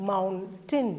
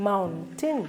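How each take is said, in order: Both takes have the same delivery.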